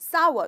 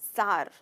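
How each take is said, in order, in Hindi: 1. यह दो अक्षर में बोला जाता है, जैसे 'sa-wer'। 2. यह एक अक्षर में बोला जाता है, जैसे 'sar'। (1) "इसकी सही प्रोनाउंसिएशन है सावर" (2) "कुछ लोगों को मैंने सार कहते हुए सुना है, पर ये गलत प्रोनाउंसिएशन"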